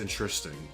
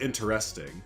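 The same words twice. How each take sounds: First: The syllables are slurred together and reduced. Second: Every syllable is pronounced clearly and fully. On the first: "if you just kind of slur it together" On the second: "It's actually spelled interesting"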